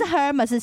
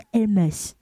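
First: The word begins with an audible H sound. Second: The word begins without any H sound. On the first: The speaker calls it wrong. "你不是Hermes" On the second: The speaker calls it right. "是Hermes"

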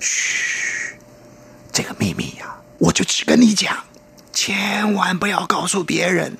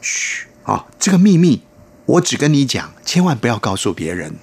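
First: It is said in an exaggerated, breathy way. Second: It is said in a plain, ordinary way.

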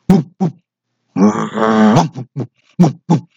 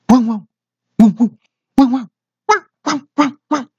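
First: A low-pitched big dog bark. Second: A middle-pitched dog bark.

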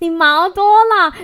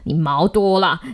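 First: It is said in a high, cheerful voice. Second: It is said in a low, scolding voice. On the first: The dog is being praised. "他就用比较高频的声音跟他讲说" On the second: The dog is being blamed. "他听到你很低沉的跟他讲说"

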